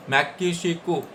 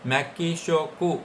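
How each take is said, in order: First: मैकिशिकू said at normal pace as mai-ki-shi-ku; confident fixed मैकिशिकू; corrected word. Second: मैकिशोकू dragged out very slowly while searching for the word; hesitant, stretched मैकिशोकू; groping slowly through मैकिशोकू before correcting it; slow first try. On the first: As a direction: settle on मैकिशिकू after the slip. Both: Shown as a demonstration. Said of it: "मेक्सिको को बोलेंगे".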